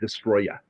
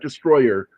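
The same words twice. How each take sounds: First: It copies the film's different pronunciation. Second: It has a plain English pronunciation. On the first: "they pronounce it destroyer" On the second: "not destroyer"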